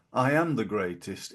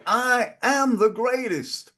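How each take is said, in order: First: Said in the usual way. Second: "I am the greatest" much higher and slow, leaning on "am"; proud declaration. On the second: Shown as a demonstration. Host showing how Ali really said it, slow high emphatic "am". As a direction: declare "am" like a certain fact. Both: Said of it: "One is how he said it".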